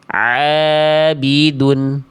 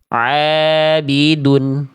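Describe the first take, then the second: No difference in how they are said.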